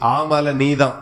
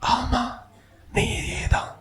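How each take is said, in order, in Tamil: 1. இந்த சொற்றொடர் உயர்ந்த, சத்தமான குரலில் சொல்லப்படுகிறது. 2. இந்த சொற்றொடர் அமைதியான, மென்மையான குரலில் சொல்லப்படுகிறது. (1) "கொஞ்சம் சத்தத்தை உயர்த்தி" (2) "மெதுவா சொல்றாரு, அவனுக்கு மட்டும் கேட்கிற மாதிரி"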